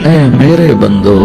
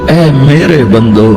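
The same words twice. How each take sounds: Both takes have the same delivery.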